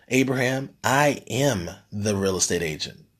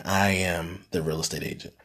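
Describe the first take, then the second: First: A weighty pause, then "I am the real estate agent" set down firmly; retold line landed with dramatic weight; dramatic pronouncement. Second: Softer and lower, "I am the real estate agent" said almost reverently; a hushed echo of the mentor's words; hushed awe. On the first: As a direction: deliver it like a mentor's big reveal. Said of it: "It's a very dramatic pause". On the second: Retold or imitated. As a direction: let it sink in quietly. Repeating the line in awe.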